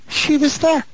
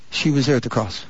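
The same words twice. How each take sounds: First: "She was there" lifted high on every word; emphatic repetition. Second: Said in the usual way. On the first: Real, not acted. Preacher repeats to congregation "She was there", high and emphatic. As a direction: drive home "She was there" on a high, held pitch.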